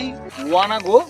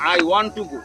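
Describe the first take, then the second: First: 'Want to' is reduced to 'wanna'. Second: 'Want to' is said as two full words. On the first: "ওয়ান টুর পরিবর্তে যদি আপনি ওয়ানা লাগান কাজ হবে" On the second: "I want to go একই কথা"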